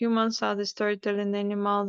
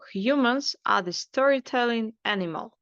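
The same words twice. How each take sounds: First: The pitch stays level through the whole phrase. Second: The pitch falls at the end of the phrase. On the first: The speaker calls it wrong. "we don't uh, keep it on the same line. Like" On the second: The speaker calls it right. "we uh, put the intonation down"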